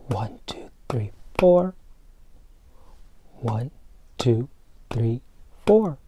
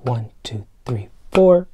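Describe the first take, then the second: First: Breathy count, no voice at all; whispered count. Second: Said in the usual way. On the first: Shown as a demonstration. Teacher whispers the beat count to children, hushed. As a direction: whisper one, two, three, four. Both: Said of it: "counting beats, then whispering them".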